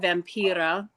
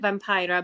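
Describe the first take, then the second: First: The name is said with Finnish pronunciation. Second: The name is said with English pronunciation. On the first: It is how her fellow Finns say the name. "we Finns, because she's Finnish" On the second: It is how other people say the name. "other people pronounce it Vampira"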